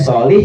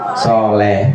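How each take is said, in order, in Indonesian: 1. Suku kata terakhir bervokal 'i'. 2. Suku kata terakhir bervokal 'e'. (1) "solih jadi soleh" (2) "Soleh apa soleh kalau orang sini?"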